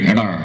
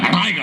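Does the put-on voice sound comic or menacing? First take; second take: menacing; comic. First: It is said in a menacing villain's put-on voice. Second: It is said in a comic character's put-on voice. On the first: "villain വേഷം ചെയ്യുന്ന അദ്ദേഹത്തിന്റെ ശബ്ദം" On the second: "comedy വേഷം ചെയ്യുമ്പോൾ അദ്ദേഹത്തിന്റെ ഇപ്പോഴത്തെ ആ ശബ്ദം"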